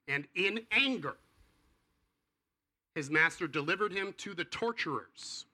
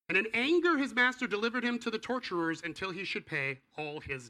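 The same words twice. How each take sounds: First: Solemn scripture reading. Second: Much higher, louder proclamation; dramatic scripture reading. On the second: Preacher rereading the scariest passage to the congregation, thundering. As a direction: read it as a fearful warning. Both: Real, not acted. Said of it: "scariest passage in the entire Bible".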